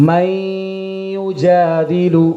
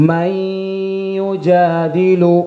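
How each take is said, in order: Both takes have the same delivery.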